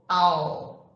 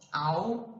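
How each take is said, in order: First: The final L is a clear L, tongue raised. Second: The final L is vocalized like a 'u' sound. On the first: The speaker calls it right. "a sua língua vai lá para cima" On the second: The speaker calls it wrong. "Não é um, I'll"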